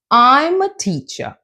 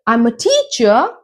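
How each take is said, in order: First: I'M high, TEACHER stepping down; falling intonation. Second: TEACHER swings up at the end; rising, the wrong way. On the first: Teacher just giving information, falling on "teacher". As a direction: let "teacher" fall as a statement. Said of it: "you go down". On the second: Teacher showing what not to say, rising on "teacher". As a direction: lift "teacher" like a question. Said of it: "I'm not saying". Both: Shown as a demonstration.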